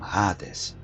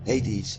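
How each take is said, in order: First: The name is said with a Dutch pronunciation. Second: The name is said with an English pronunciation. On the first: This is how Dutch speakers say it. "in Dutch we call them Hades" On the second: This is how English speakers say it. "Hades is simple"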